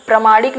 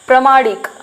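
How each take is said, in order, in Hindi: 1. पहला स्वर छोटा है। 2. पहला स्वर छोटा है।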